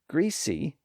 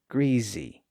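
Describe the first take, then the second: First: The middle consonant is a hissing S sound. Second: The middle consonant is a buzzing Z sound. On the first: "greasy has a voiceless S sound" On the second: "voicing the consonant in the middle"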